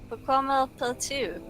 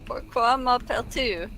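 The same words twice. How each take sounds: First: M'appelles is said with an extra L, like malpel. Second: M'appelles is said without an extra L, like mapel. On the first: The speaker calls it wrong. "it's not Malpel" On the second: The speaker calls it right. "That's better"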